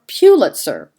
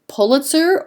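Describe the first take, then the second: First: Pulitzer with PEW as the first syllable; alternative pronunciation. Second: Pulitzer with PULL as the first syllable; first pronunciation. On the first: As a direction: say Pulitzer as PEW-lit-ser. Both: Shown as a demonstration. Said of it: "how a name is pronounced".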